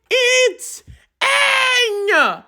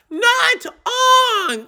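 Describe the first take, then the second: First: Aang said with a flat a, "ang" like sang; Aang, said the right way, ah-ng with a flat a; correct Aang. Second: Aang said as "ahn" with an open o; wrong Aang. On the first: Correcting the movie's name, Aang with a flat a. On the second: Mocking the movie's pronunciation, Aang as "ahn". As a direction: Aang mocked as the film says it, ahn. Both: Shown as a demonstration.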